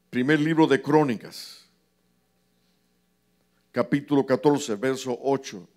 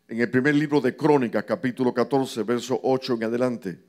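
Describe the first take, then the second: First: It is said slowly. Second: It is said fast.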